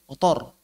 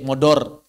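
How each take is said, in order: First: Motor with a clear t; correct pronunciation. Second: Modor with d for t; wrong pronunciation. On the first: Teacher giving the correct motor. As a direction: say motor plainly with the t. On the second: Teacher showing a foreigner's wrong motor. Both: Shown as a demonstration. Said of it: "pakai D".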